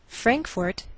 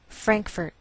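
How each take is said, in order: First: The second syllable sounds like 'fort'. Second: The second syllable sounds like 'furt'.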